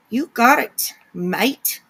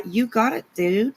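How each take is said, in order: First: Playful mock New Zealand accent, leaning on MATE; hammed-up Kiwi "mate"; bad Kiwi accent. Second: Said in the usual way. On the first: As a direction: have a go at a Kiwi accent, badly. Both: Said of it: "doing a really bad accent".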